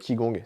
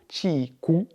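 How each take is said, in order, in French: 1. Le mot se prononce avec des sons français. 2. Le mot se prononce avec des sons mandarins. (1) "que certaines personnes en français appellent le Qigong" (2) "je crois qu'en mandarin, on prononce plutôt"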